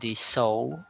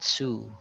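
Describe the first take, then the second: First: The word ends with an 'oh' vowel. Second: The word ends with an 'oo' vowel. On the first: The speaker calls it right. "sew something like a sewing machine" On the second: The speaker calls it wrong. "So it's not sue"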